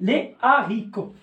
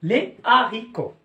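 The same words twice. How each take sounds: No difference in how they are said.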